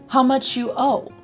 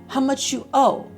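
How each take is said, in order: Both takes have the same delivery.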